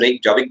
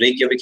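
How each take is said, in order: First: The middle consonant is a J sound. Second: The middle consonant is a Y sound. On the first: "इसे रेयकजाविक भी बोल सकते हो" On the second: "actual में जो जे होता है इनमें साइलेंट होता है"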